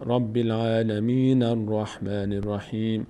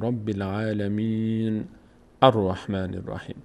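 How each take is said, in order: First: The two phrases run together without pause. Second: A pause separates the two phrases. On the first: "اگر بچسبونیم اینو به هم" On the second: "اگر اینجا وای میستادیم"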